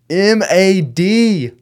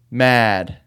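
First: "M A D" spelled slowly, each letter separate and higher. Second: Said in the usual way. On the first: Shown as a demonstration. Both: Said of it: "I forgot the E D".

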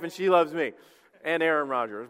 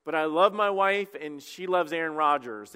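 First: Laughing correction. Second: Said in the usual way. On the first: Shown as a demonstration. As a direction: laugh as you correct yourself to include her. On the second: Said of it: "I love my wife, and she loves me".

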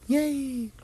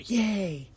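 First: Very high squeaky Yay!; higher mock cheer. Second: High, soft little cheer; mock cheer. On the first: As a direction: push the Yay! way up. Observer cheering louder. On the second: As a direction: cheer like a delighted child. Observer cheering at creation.

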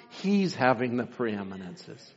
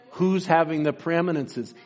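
First: "He's" set apart, the rest low, slow and softer; weight on "He's", then drop low and slow; solemn emphatic answer. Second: Said in the usual way. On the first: Real, not acted. Preacher answers his own question, solemnly stressing "He's".

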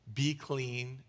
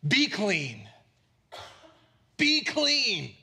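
First: Said in the usual way. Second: Emphatic command. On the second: Acted. Jesus commanding the leper to be healed, emphatic command. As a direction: call it out with authority, punching each word. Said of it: "You know how he said it?".

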